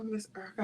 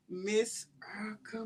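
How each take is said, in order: First: Breathy whispered name of the guest; whispered, tender thanks to the guest. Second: Said in the usual way. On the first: Real, not acted. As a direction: drop to a whisper for her name.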